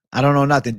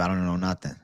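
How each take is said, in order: First: Louder tough-guy mobster line. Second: Said in the usual way. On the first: Shown as a demonstration. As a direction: punch it like a wiseguy. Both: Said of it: "You'll teach me proper Mexican saying".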